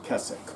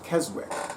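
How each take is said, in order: First: Keswick is pronounced the way locals say it. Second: Keswick is pronounced just as it is spelled. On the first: The speaker calls it right. "I have heard from the locals it's" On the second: The speaker calls it wrong. "It's spelled like it's pronounced"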